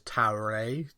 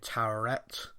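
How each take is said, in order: First: It ends without a final T sound. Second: It ends with a clear final T sound. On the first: "like Tower, like you don't pronounce the last T" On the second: "everybody, including in the show, are saying Towerette"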